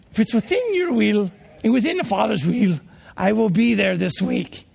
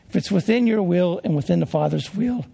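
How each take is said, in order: First: Put-on a light English accent, measured and polite. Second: Said in the usual way. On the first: Preacher imitating Arthur Burt's English accent on the phone. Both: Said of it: "I'll try an English accent here".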